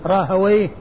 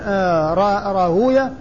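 First: The ending is said as open 'wa' plus 'yh'. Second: The ending is said as long 'u' plus 'yah'. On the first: This is the form linguists use. "الواو مفتوحة والياء ساكنة والهاء بعدها ساكنة" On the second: This is the form hadith scholars use. "وأما المحدثون فيقولون وينطقونه"

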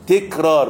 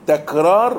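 First: The first syllable has the vowel 'i'. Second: The first syllable has the vowel 'a'. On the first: The speaker calls it wrong. "وليس" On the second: The speaker calls it right. "بفتح التاء"

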